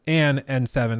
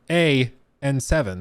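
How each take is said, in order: First: The article is 'an', linking into the vowel. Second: The article is a plain 'a' without 'n'. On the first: The speaker calls it right. "It's an N seven" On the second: The speaker calls it wrong. "it doesn't sound right"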